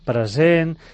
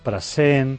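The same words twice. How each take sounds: First: The s between vowels is voiced. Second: The s between vowels is voiceless. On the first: The speaker calls it right. "cal fer la pronúncia sonora genuïna d'aquest so alveolar" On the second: The speaker calls it wrong. "ensordeix sistemàticament el so de la S. No en fa cap de sonora"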